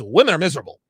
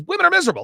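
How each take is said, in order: First: Said in the usual way. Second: Much higher, emphatic quoted rant; lightly voiced comedian ranting; Patrice's rant. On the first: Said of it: "he says". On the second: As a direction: throw his line out high and hard. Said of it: "He says".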